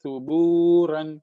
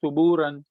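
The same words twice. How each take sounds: First: سبورن slowly with the واو held two beats; stretched waw. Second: سبورن with the و clipped short; deliberately wrong demo; wrong short vowel. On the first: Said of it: "اس واو کو کھینچنا ہے". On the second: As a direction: say سبورن wrongly, no stretch on the waw. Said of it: "ایسے غلط پڑھیں گے". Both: Shown as a demonstration.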